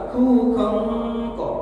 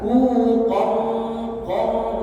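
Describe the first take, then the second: First: The final syllable is light and thin. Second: The final syllable is heavy and full. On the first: The speaker calls it wrong. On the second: The speaker calls it right. "tapi tebal"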